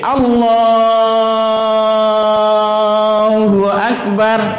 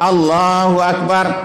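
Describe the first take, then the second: First: The vowel in Allah is held long. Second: The vowel in Allah is held briefly.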